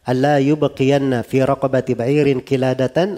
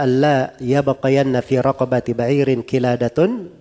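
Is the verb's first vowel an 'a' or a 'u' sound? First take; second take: u; a. First: The verb starts with 'yub' and the noun ends in 'an'. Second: The verb starts with 'yab' and the noun ends in 'un'. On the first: Nobody should leave a necklace in place. "dan bisa juga dibaca" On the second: The necklace is the one that remains. "Jadi bisa dibaca"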